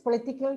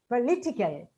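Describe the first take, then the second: First: The syllable 'li' carries no clear stress. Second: The syllable 'li' carries clear stress. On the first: The speaker calls it wrong. "unless we know this, we say" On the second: The speaker calls it right. "political with stress on li"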